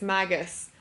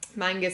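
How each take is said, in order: First: No n sound comes before the g. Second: An n sound comes before the g. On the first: The speaker calls it right. "it's Magus" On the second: The speaker calls it wrong. "It's actually not Mangus"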